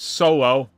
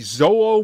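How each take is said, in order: First: The name begins with an s sound. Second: The name begins with a sound other than s.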